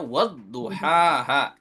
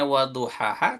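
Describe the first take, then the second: First: The consonant is held long and doubled. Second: The consonant is short and single. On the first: The speaker calls it wrong. "Tapi kita baca waduhaha. Itu juga jadi merubah maknanya" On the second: The speaker calls it right. "Aslinya waduhaha tanpa tasdid"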